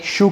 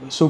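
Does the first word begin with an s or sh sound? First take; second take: sh; s. First: The first word begins with an sh sound. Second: The first word begins with a plain s sound. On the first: This is how it was said in the old days. "Back in the day, it used to be spoken like" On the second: This is how people say it today. "today you ask anyone and you're saying like"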